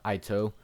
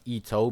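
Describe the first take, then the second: First: The name is said with English-style vowels. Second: The name is said with Japanese vowels. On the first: The speaker calls it wrong. "not Ito" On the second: The speaker calls it right. "because of its Japanese pronunciation"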